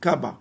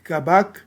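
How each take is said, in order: First: The word ends without the final K sound. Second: The word ends with a pronounced K sound. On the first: The final consonant is not pronounced in paleo-Hebrew. The speaker calls it right. "ça se prononce kaba" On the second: This is how others pronounce it. The speaker calls it wrong. "ça ne se prononce pas kabak, ok, phonétique kabak"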